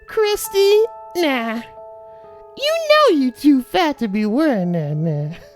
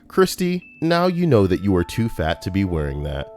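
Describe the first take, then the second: First: It is delivered with sassy, mocking attitude. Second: It is read out flatly, without attitude.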